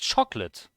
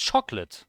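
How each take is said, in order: First: The middle O is dropped from the word. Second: The same.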